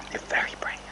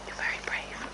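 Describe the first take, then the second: First: Said in the usual way. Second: Whispered praise. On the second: Real, not acted. Rider soothing a nervous horse, soft whisper. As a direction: breathe the words softly.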